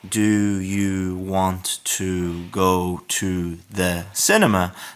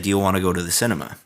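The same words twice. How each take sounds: First: Each word is said separately and clearly. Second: The words run together in connected speech.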